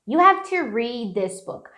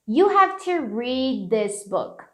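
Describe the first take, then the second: First: The d is softened and linked into 'this'. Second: The same.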